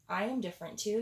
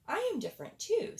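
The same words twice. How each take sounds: First: A hint of a shy badger, a bit louder; lightly voiced badger. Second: High, fast little hedgehog voice; squeaky hedgehog. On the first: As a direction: speak up like a timid badger. Badger speaks up. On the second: Acted. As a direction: pipe up quick like a tiny hedgehog. Hedgehog speaks up.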